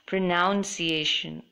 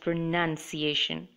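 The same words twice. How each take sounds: First: The second syllable sounds like 'noun'. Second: The second syllable sounds like 'nun'. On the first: The speaker calls it wrong. "I hear people say it, it as pronunciation" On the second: The speaker calls it right. "it should be pronounced as pronunciation"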